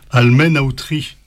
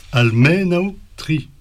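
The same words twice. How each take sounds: First: Said in the usual way. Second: "Almenautri" slow and higher, stress on the me syllable; drawn-out "Almenautri", punching the me. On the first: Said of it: "si tu dis par exemple". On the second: Shown as a demonstration. Teacher showing students where "Almenautri" takes its stress. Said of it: "l'accent tonique sur mais".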